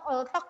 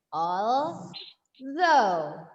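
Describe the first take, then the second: First: The word ends with a hard k sound. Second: The word ends with an open vowel sound. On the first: The speaker calls it wrong. "kalian bilangnya oltok oltok oltok gitu ya, manual tuk, tuk" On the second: The speaker calls it right. "please consult your dictionary and check the phonetic transcription"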